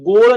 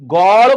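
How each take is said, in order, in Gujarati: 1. o સ્વર સંવૃત છે. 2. o સ્વર વિવૃત છે. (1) "ગોળ નથી બોલતા" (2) "ગોળ બોલો છો"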